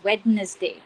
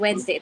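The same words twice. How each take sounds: First: The middle d is pronounced as written. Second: The middle d is silent. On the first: The speaker calls it wrong. "we always say it as Wednesday... literal pronunciation" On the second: The speaker calls it right. "so it's Wednesday"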